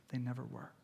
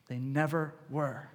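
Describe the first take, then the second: First: Softer and hushed, almost whispered. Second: "never" leaned on, slow and deliberate; slow down and press on "never"; slow stress on never. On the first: Preacher reassuring the congregation, hushed. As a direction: say it low and hushed. Repeated reassurance, first take. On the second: Preacher insisting to the congregation, slow stress on "never". Repeated reassurance, second take. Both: Real, not acted.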